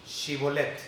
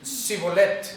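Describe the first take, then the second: First: "Shibolet" with a clear sh at the start, ʃibolet; sh pronunciation. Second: "Shibolet" with a plain s instead of sh, sibolet, louder; the Ephraimite blurts "Shibolet" with an s; plain s pronunciation. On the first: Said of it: "a ver, di". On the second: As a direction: say "Shibolet" with a hissed s, not sh. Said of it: "Y el otro". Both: Retold or imitated.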